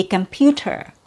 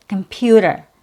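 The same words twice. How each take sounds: First: "computer" with a clearly sounded T; standard way. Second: "computer" with a flapped d for the t; no T sound. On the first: Teacher giving the proper standard "computer", true T. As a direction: say the full t in "computer", no flap. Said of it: "proper way or the standard way". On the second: Teacher noting American "computer" has no T, fast D. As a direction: reduce the end of "computer" to a quick "der". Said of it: "there's no T sound". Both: Shown as a demonstration.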